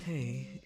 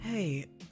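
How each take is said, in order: First: It is said in a lower-pitched voice. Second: It is said in a higher-pitched voice. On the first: The speaker calls it right. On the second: The speaker calls it wrong.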